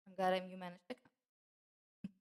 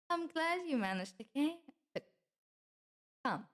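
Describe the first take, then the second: First: Slow, careful welcome. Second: High-pitched welcome. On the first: Repeats welcome after stumbling. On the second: First take of welcome, stumbles. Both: Acted.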